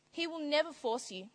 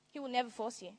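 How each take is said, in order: First: Never leaned on, a little higher; stress on never. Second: Said in the usual way. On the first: Shown as a demonstration. Preacher insisting to the congregation, never stressed. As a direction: press the word never.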